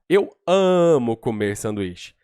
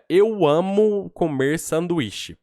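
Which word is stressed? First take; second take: amo; none. First: The word amo is given strong emphasis. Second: No word is given special emphasis. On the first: "se você der ênfase em alguma frase" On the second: "Quando você fala assim"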